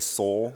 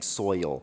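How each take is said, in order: First: The vowel is a Southern single vowel, like soul. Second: The vowel is a standard two-part oi sound. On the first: "My southern accent comes out and I say soul" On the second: "I'm saying soil"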